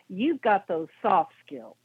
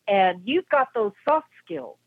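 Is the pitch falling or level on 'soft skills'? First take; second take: falling; level. First: The pitch drops down on soft skills. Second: The pitch stays level on soft skills.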